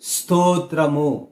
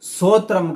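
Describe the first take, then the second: First: The initial consonant cluster is pronounced fully and clearly. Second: The initial consonant cluster is reduced and unclear. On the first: The speaker calls it right. "ఖచ్చితంగా ఒత్తి పలకాలి" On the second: The speaker calls it wrong. "స్తోత్రం కాదండి"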